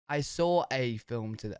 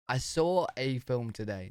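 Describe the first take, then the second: No difference in how they are said.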